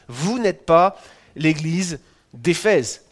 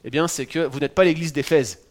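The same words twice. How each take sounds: First: "Vous n'êtes pas l'église d'Éphèse" said very slowly, each word weighed, a little louder; slow emphatic restatement. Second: Said in the usual way. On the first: Shown as a demonstration. Preacher to congregation, repeating his point, slow and emphatic. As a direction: drive home "pas" by slowing right down.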